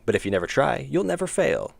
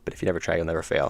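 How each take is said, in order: First: It is spoken in a projected, performed voice. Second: It is spoken in a relaxed conversational voice. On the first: "when I'm projecting my voice ... it's a lot more voice actory" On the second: "that's me just talking a normal, my normal cadence"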